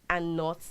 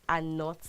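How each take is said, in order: The two takes are said the same way.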